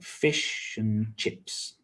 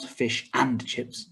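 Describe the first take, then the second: First: The word 'and' is reduced to a weak schwa. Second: The word 'and' is said with a full vowel. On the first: The speaker calls it right. "It's always weak, like fish and chips" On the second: The speaker calls it wrong. "not fish and chips"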